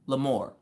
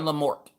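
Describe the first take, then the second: First: The final T sound is left silent. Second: The final T sound is pronounced. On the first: "The T is silent" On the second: "I call her Lamort"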